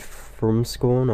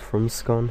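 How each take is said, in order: First: The last syllable sounds like "scorn". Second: The last syllable sounds like "scon". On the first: "a bit of a Scorn, Scorn or Scon debate" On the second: "personally I say Scon"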